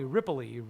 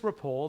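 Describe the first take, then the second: First: The name ends with an added 'ee' sound. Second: The name ends on a plain 'l' sound. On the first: The speaker calls it wrong. "everybody would call me Ripley" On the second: The speaker calls it right. "It's just Ripple. There's no I at the end"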